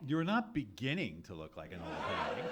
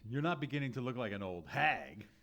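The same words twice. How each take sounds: First: The word beginning is stressed. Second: The word beginning is not stressed.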